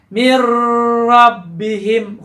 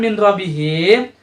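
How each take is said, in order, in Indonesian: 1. N melebur menjadi bunyi r yang ganda. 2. Bunyi n terdengar sebelum r. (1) "maka akan berbunyi mir rabbihim" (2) "ketika nanti disatukan"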